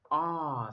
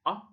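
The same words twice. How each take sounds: First: "ah" as a long open ah. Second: "ah" as a short uh. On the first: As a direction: stretch "ah" open, like in star. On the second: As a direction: clip "ah" short, like in fun. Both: Shown as a demonstration.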